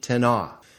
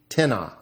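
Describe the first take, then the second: First: The stress is on the second syllable. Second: The stress is on the first syllable. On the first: It refers to someone or something unspecified. "Indefinite, ... has the accent on the second syllable or no accent at all" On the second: It asks a question: whom or what? "Interrogative, ... always has the accent on the first syllable"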